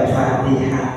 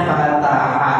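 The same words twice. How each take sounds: First: Fatihah said fa-ti-hah, with an i after t; wrong reading. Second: Fataha said fa-ta-ha, open a in every syllable; correct reading. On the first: Teacher warns students against reading fatihah, a mild demo. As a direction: show the mistaken fatihah, i in the middle. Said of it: "nggak dibaca fatihah". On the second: Teacher gives the correct Arabic reading of fataha, careful and clear. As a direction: read fataha with a plain a sound after t. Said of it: "Ini bacanya fataha". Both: Shown as a demonstration.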